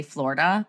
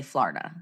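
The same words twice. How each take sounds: First: "Florida" with a rounded OR, FLOR-ih-duh; standard Florida. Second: "Florida" as FLAR-duh, open AH, softer and lower; Jersey Florida. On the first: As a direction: say "Florida" with OR, not AR. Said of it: "now I say Florida". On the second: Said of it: "for the sake of this podcast". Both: Shown as a demonstration.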